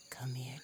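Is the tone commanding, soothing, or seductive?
seductive. The tone is warm and seductive. A lover is inviting intimacy. "A woman may say to her lover"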